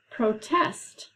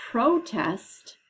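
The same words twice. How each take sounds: First: "protest" slowly, as pro-TEST; stress on second syllable. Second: "protest" as PRO-test, first syllable strong; stress on first syllable. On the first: Teacher giving students the second one, "protest" stressed pro-TEST. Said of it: "The second one is". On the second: Teacher confirming students' first guess, "protest" stressed PRO-test. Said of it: "based on the accented part of the word". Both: Shown as a demonstration.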